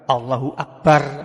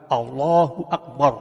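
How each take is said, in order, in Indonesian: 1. Huruf r di akbar tipis dan ringan. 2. Huruf r di akbar tebal dan berat. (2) "kalau akbar ini dibaca sukun, maka rohnya juga tebal"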